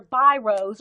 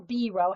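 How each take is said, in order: First: Biros said as BY-rohz; alternative pronunciation. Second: Biro said as BEE-roh; French-style pronunciation. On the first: Explaining what Bic pens are called, biros pronounced BY-rohz. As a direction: say biros with a long "eye" first vowel. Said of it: "however you pronounce it". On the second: Explaining the French way to viewers, biro pronounced BEE-roh. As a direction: say biro with an "ee" first vowel. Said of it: "however you say it with the French accent". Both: Shown as a demonstration.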